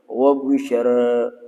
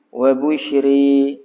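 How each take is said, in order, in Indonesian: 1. Vokal akhir berada di antara 'a' dan 'e'. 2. Vokal akhir condong sepenuhnya ke 'e'. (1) "Itu taklil" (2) "Satu kita panggil imalah"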